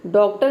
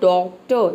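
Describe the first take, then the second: First: The final r sound is pronounced. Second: The final r sound is left silent. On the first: The speaker calls it wrong. "डॉक्टर नहीं बोलना है" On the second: The speaker calls it right. "आपको बोलना है डॉक्टर, इस तरह से"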